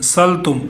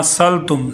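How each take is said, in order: The two takes are said the same way.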